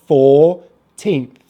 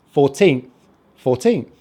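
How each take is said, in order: First: Put-on "fourteenth" slowly as four, pause, teenth; syllable by syllable. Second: Said in the usual way. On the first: Shown as a demonstration. Teacher building the number for learners, "fourteenth" syllable by syllable. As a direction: split "fourteenth" into two long parts. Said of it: "and then the teenth at the end". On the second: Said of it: "So we have fourteenth".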